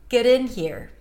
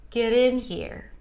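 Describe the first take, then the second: No difference in how they are said.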